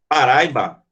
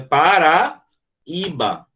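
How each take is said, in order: First: The 'ai' is joined into one syllable. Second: The 'i' is said as its own syllable. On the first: The speaker calls it wrong. "se a palavra fosse Paraíba ... que seria um ditongo" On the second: The speaker calls it right. "mas é Paraíba. Esse I aqui, ele sozinho é uma sílaba"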